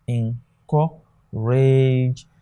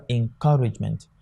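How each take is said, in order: First: "encourage" very slowly, split en-cou-rage; syllable by syllable. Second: Said in the usual way. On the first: Shown as a demonstration. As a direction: break "encourage" into separate drawn-out syllables. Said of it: "these are the various syllables". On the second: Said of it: "not as a diphthong, but as one sound".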